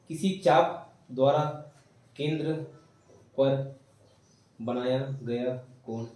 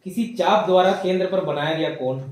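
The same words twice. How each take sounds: First: किसी चाप द्वारा, then केंद्र, then पर, then बनाया गया कोण, each piece with a pause; chunked dictation. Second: Said in the usual way. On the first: Shown as a demonstration. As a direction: dictate it phrase by phrase so they can write.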